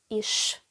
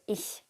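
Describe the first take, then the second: First: The word ends with an 'sh' sound. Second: The word ends with a soft 'ch' sound. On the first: This is a regional dialect pronunciation. "В деяких регіонах вимовляють" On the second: This is the standard literary pronunciation. "як вчать стандарт літературної мови"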